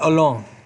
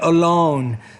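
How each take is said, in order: First: The O vowel is short and clipped. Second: The O vowel is long and drawn out. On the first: The speaker calls it wrong. "not alone" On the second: The speaker calls it right. "but alone. So that's a long vowel sound"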